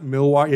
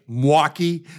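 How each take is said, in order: First: "Milwaukee" with all three syllables, Mil-wau-kee; "Milwaukee" said in full, as non-locals do; outsider pronunciation. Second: "Milwaukee" squeezed into two syllables, like "Mwaukee"; "Milwaukee" run together as M'waukee; local pronunciation. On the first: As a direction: sound the "Mil" fully in "Milwaukee". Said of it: "It's a two-syllable word". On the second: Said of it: "you actually say Milwaukee". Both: Shown as a demonstration.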